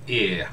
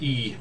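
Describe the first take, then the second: First: The letter name is said the Icelandic way. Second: The letter name is said the English way. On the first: "but in Icelandic" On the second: "in English, you you say it like E"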